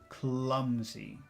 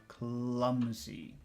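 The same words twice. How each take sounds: Both takes have the same delivery.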